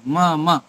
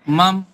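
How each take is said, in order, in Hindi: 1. दोनों अक्षर पूरे बोले जाते हैं, आखिरी स्वर के साथ। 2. आखिरी स्वर छोड़ा जाता है, शब्द व्यंजन पर खत्म होता है। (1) "म म पूरा बोल रहे हैं" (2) "जल्दी जल्दी बोलते समय लोग ऐसा बोल देते हैं"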